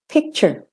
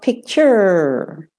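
First: The final syllable is short, flat and reduced. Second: The final syllable is longer, curving and stressed. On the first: The speaker calls it right. "The de-stressed is just straight, and that's the one that you mainly use at the end of English words" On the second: The speaker calls it wrong. "not picture"

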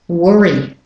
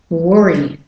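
No difference in how they are said.

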